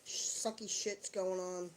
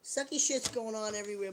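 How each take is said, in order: First: "Sucky shit's going on" drawn out slowly, stretching "going"; slow, dragging. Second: Said in the usual way. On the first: Real, not acted. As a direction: let it drag, slow and resigned.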